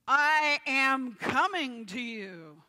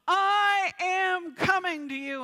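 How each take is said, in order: First: It is said louder than normal. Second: It is yelled at full strength. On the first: "pound on the pulpit and say it louder"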